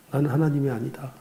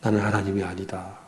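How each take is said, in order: First: 하나님이 lifted and stressed with a rising tune; firm repeat. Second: Quiet inner resolve. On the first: Pastor repeating his inner vow, stress on 하나님이. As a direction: lean on 하나님이 on the second try. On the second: Pastor reminding himself he is not God, hushed. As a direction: murmur it to yourself, much lower and softer. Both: Retold or imitated. 그렇게 애쓰다가 이 모양이 됐다.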